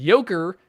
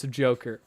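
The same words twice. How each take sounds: First: "Joker" said as "Yoker", with a y; German pronunciation. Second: Said in the usual way. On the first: Shown as a demonstration. Reading a viewer's note on German speech, "Joker" as "Yoker". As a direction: start "Joker" with a y sound, not a j. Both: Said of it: "is how Germans pronounce Joker".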